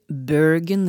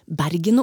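First: The name is said with an English pronunciation. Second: The name is said with a Norwegian pronunciation. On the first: "sier Bergen eller Oslo ... når du skal prate engelsk" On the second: "om Bergen og Oslo"

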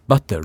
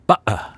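First: The middle consonant is a clear t sound. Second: The middle consonant is a glottal stop. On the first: "De sier ikke butter" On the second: "da lukker du i stemmeleppen"

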